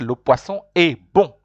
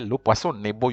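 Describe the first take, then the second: First: The n sound stays apart from the next word. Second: The n sound runs into the next word. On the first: The speaker calls it right. "You say" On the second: The speaker calls it wrong. "You don't say"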